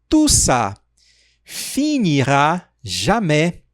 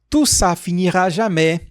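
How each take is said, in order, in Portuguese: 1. Ela é dita mais devagar. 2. Ela é dita em ritmo normal.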